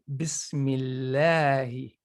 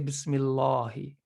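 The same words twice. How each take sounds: First: The L in lahi sounds light and thin. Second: The L in lahi sounds heavy and thick. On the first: The speaker calls it right. "has to be light if it's preceded by a kasra" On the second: The speaker calls it wrong. "We don't say Bismillahi"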